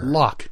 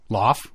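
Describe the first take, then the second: First: The word ends with a ch sound. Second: The word ends with an f sound. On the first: The speaker calls it right. "Like Loch Lomond, Loch Ness" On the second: The speaker calls it wrong. "No, you'd be wrong"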